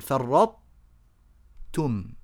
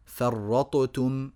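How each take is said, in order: First: The ṭ begins, then opens straight into t. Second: The ṭ is fully released with a bounce. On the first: The speaker calls it right. "نطبق اللسان على طاء ونفتحه على تاء" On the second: The speaker calls it wrong. "يظهرون هذه الطاء إظهارا مطلقا فيجعلونها مقلقلة"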